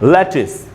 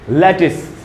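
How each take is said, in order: The two takes are said the same way.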